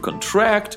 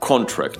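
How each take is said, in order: First: The stress is on the second syllable. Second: The stress is on the first syllable. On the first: It is a verb meaning to make an agreement or hire. "to contract – это заключать соглашение" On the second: It is a noun meaning a document or agreement. "ударение в русской версии слова и в английской не совпадают"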